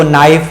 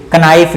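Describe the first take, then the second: First: नाइफ begins on n, no k; silent-k pronunciation. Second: कनाइफ with k sounded before n; wrong pronunciation. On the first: Teacher gives knife its proper reading, silent-k pronunciation. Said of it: "इसको नाइफ पढ़ते हैं". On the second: Teacher shows the misreading of knife, wrong pronunciation. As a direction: add a false k to start कनाइफ. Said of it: "कनाइफ नहीं". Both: Shown as a demonstration.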